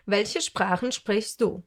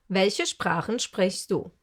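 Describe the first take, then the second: No difference in how they are said.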